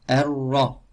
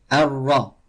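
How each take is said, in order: No difference in how they are said.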